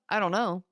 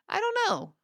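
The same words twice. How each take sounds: First: It is said in a flat, cold tone. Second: It is said in a light, positive tone. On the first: The speaker sounds cold and negative. The speaker calls it wrong. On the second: The speaker sounds easygoing and positive. The speaker calls it right.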